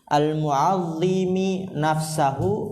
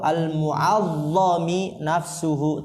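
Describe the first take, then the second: First: It is read mu'azzimi, then nafsahu. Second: It is read mu'azzami, then nafsuhu. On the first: The speaker is the one who glorifies himself. "Kalau bacanya al mu'azzimi itu isim fa'il" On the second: The speaker is the one whose self is glorified. "kalau dibacanya al mu'azzami isim maf'ul"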